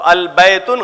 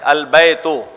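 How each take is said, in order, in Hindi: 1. इस शब्द का अंत n ध्वनि से होता है। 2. इस शब्द का अंत बिना n ध्वनि के होता है।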